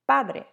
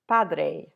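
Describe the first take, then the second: First: The vowels are pure, with no glide at the end. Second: The vowels glide and close off at the end. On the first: The speaker calls it right. "So if you keep your vowels pure" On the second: The speaker calls it wrong. "not padre"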